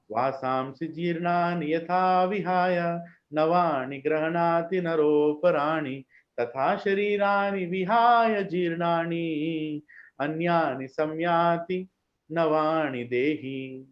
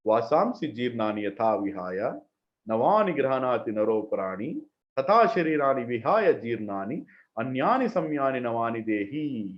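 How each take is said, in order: First: Very slow, careful chanting of each word; slow devotional recitation. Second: Imitating the funeral van recording, lower and droning; funeral van cassette style. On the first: Shown as a demonstration. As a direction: savor every syllable of the verse. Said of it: "But see this shloka". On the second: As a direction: recite it like the cassette played at funerals. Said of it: "I'll read the shloka in their accent".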